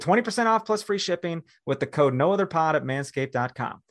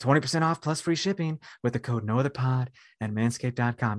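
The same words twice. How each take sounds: First: It is said in a normal, louder voice. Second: It is said in a softer, quieter voice.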